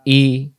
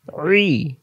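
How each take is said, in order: First: Clean open "ই"; "ই" with glottal start, no squeeze; hamza i. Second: Higher "রি" as throat-pressed ee, no r; squeezed ain i. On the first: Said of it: "Hamza এবং আইন অক্ষরের পার্থক্য". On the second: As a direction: tighten the throat into "রি". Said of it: "গলার ভিতরে চাপাচাপি হবে". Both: Shown as a demonstration.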